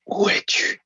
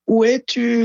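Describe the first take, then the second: First: It is said in a breathy whisper. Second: It is said in a loud shout.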